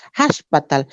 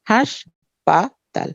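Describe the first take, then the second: First: Said in the usual way. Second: হাসপাতাল very slowly as "hash... paa... tal"; three separate syllables in হাসপাতাল, with pauses between; split into syllables. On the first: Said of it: "কয় ভাগে ভেঙে উচ্চারণ". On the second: Shown as a demonstration. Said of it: "এখানে তিনটা অক্ষর".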